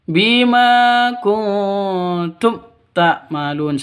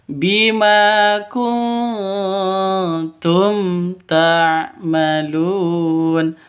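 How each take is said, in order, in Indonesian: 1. Huruf m sebelum ta'malun tidak diucapkan dengan jelas. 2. Huruf m sebelum ta'malun diucapkan dengan jelas. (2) "Yang betul ... mimnya jelas"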